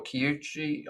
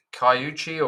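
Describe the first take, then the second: First: Kiyuchi with KI as in "key"; second guess at Kiyuchi, starting "kee"; alternative pronunciation. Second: Kaiuchi with KAI as in "sky"; first guess at Kaiuchi, starting "kai"; unsure pronunciation. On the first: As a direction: say Kiyuchi tentatively, opening on a "kee" sound. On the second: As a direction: say Kaiuchi tentatively, opening on a "kai" sound. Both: Real, not acted. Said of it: "I don't know how to speak it".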